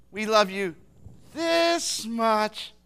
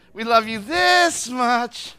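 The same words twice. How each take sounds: First: Drawn-out, stretched declaration of love; doting grandparent. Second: Loud, very slow, stretched declaration; exaggerated doting. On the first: Retold or imitated. Grandparents telling a little kid their love, exaggerated fondness. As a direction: stretch it out for a small child. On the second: Grandparents telling a child their love, big drawn-out fondness. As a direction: draw it way out, louder on THIS. Grandparent's phrase repeated louder.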